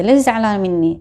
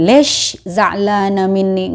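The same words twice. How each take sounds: First: Lesh za'lana minni said lightly, lips relaxed, not pushed forward; easy unrounded lesh za'lana minni; relaxed mouth. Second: Lesh za'lana minni said slowly with lips pushed out; exaggerated pouting on lesh za'lana minni; slow overrounded lesh za'lana minni; pouted lips. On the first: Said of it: "mulutnya dientengin aja". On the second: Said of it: "enggak terlalu dimonyong-monyongin". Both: Shown as a demonstration.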